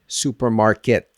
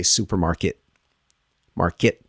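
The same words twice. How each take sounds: First: "supermarket" with a crisp released final T; fully aspirated last T in "supermarket"; regular T. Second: "supermarket" with the final T held back; unreleased T ending "supermarket"; stop T. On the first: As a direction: sound the T at the end of "supermarket". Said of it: "I'm gonna use the regular T". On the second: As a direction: cut "market" off without releasing the T. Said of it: "they'll stop the T". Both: Shown as a demonstration.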